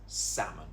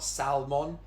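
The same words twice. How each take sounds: First: The L sound is left out of the word. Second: The L sound is pronounced in the word. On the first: The speaker calls it right. "Just get rid of the L. It's salmon" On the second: The speaker calls it wrong. "It's not salmon. Just get rid of the L"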